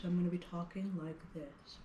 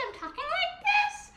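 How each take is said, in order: First: Lower, softer demo voice; really low pitch. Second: Very high pitched demo voice; really high pitch. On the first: Music teacher showing children a low pitch, low soft voice. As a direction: drop down low to show the kids a low pitch. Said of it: "if I have a really low pitch". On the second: Music teacher showing children a high pitch, very high voice. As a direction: jump way up high to show the kids a high pitch. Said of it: "if I have a really high pitch". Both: Shown as a demonstration.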